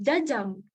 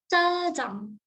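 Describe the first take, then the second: First: The first consonant is a plain j sound. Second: The first consonant is a tense doubled sound. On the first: The speaker calls it wrong. "bukan jajang" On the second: The speaker calls it right. "tapi cajang"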